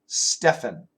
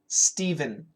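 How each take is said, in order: First: The middle consonant is not a v sound. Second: The middle consonant is a v sound. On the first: This is a less common way to say the name. "Sometimes we say Stephen" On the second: This is the usual way to say the name. "usually we say Stephen, Stephen, just like S T E V E N"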